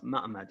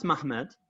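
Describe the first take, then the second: First: "Ma'amad" with a break instead of h; "Ma'amad", two a sounds after the m; as spelled. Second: "Mahmad" with the h sounded; pronounced form. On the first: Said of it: "but it's actually spelled". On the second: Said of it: "It's pronounced Mahmad". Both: Shown as a demonstration.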